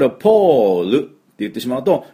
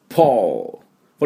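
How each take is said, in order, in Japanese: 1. Lの音の後に余分な 'u' の母音が続きます。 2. 単語はLの音で きれいに終わります。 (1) "U が入りますから、ちょっと音が違ってくる" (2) "L で、L。ここで終わります。"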